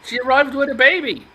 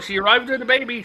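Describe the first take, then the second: First: Put-on "baby" punched, loud and high; stress on baby. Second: Faster, "arrived" stressed. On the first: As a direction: land hard on "baby". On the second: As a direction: hit "arrived", quick delivery. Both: Shown as a demonstration. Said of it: "That's all we're told".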